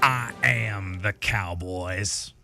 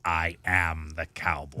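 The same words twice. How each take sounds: First: It is said in a Southern American accent. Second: It is said in a sinister, villainous voice. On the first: "I liked it better when you didn't do the Southern accent" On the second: "That is very Palpatine esque"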